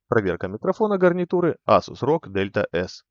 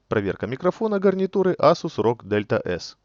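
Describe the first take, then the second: First: Background noise is strongly filtered out. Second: Background noise is left unfiltered. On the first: "вот так он звучит, когда она включена на максимум" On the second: "А вот так звучит, когда выключена"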